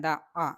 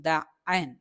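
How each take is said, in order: First: ദ അ hit hard with a strong doubled stop; forceful shadda. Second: ദ അൻ, same forceful ദ ending in a clear nasal അൻ; with tanween. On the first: Teacher showing students the forceful shadda on ദ അ. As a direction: press ദ firmly before അ. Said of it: "നല്ല ശക്തിയിൽ പറയണം". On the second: Teacher showing the tanween form ദ അൻ after the plain ദ അ. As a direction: add the അൻ tanween sound after the stressed ദ. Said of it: "Tanveen ബിൽ ഫത്തഹ് വരുമ്പോഴോ". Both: Shown as a demonstration.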